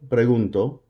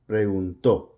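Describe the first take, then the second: First: The stress falls before the final syllable. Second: The stress falls on the final syllable. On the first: I ask, in the present. "first person present" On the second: He or she asked, in the past. "that accent is going to have more force on it"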